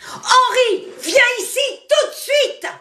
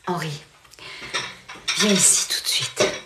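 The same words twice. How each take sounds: First: It is said in a furious, angry tone. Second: It is said in a calm, ordinary tone. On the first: The person just broke something precious. "Henri vient de casser un truc mais hyper mais auquel tu tiens, mais grave" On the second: It is a simple call to come over. "tu peux le dire en mode"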